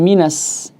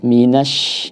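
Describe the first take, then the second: First: The word ends with a plain 's' sound. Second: The word ends with a clear 'sh' sound. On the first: The speaker calls it wrong. "jangan sampai minas" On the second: The speaker calls it right. "di sini harus jelas ya"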